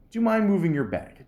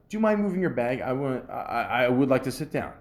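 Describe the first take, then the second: First: Higher, polite ask; a nice way to ask for the seat; polite request. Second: Courteous ask with a light tone; demonstrating the nice way to ask for a seat; polite request. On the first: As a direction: ask nicely, friendly. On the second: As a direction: say it nicely, no attitude. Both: Shown as a demonstration. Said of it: "Just say it in a nice way".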